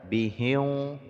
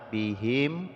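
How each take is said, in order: First: The final m is held with a nasal hum. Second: The final m is clear with no nasal hum. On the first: The speaker calls it wrong. "Jangan sampai dibaca bihim ya, itu salah" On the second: The speaker calls it right. "Tidak boleh ada dengung di sini ya"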